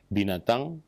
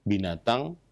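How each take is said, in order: No difference in how they are said.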